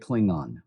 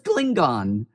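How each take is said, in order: First: The word is said slurred, run together. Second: The word is said carefully, each part distinct. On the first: This is the later common pronunciation. "before everything kind of slurred into Klingon" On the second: This was the original early pronunciation. "He says Klingon, just like, well, William Campbell and others early in the original series"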